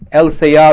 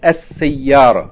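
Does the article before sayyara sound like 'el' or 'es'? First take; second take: el; es. First: The article is said with a clear L sound. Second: The L merges into a doubled S sound. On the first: The speaker calls it wrong. "Instead of El Sayara" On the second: The speaker calls it right. "you say Es Sayara"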